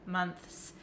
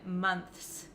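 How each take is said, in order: The two takes are said the same way.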